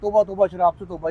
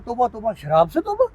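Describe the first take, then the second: First: It sounds like a pious, solemn warning. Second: It sounds like a drinker's mocking disbelief.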